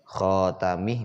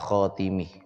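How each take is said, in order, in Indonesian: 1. Vokal setelah t itu 'a'. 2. Vokal setelah t itu 'i'. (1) "bi fathit ta" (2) "wa kasriha"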